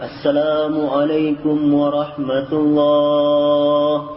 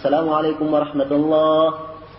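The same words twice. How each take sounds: First: The greeting is drawn out very long. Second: The greeting is said quickly and loudly.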